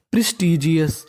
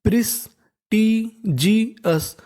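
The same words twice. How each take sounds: First: Said in the usual way. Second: prestigious drawn out very slowly with a falling end; teacher sounding out prestigious for the class; slow syllable by syllable. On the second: Shown as a demonstration. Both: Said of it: "तो meaning बन गई".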